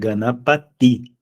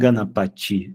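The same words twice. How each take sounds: First: The last syllable has a plain t sound. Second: The last syllable has a ch sound. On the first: The speaker calls it right. "é Ganapati" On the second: The speaker calls it wrong. "Não é Ganapati"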